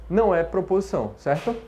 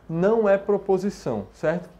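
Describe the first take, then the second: Both takes have the same delivery.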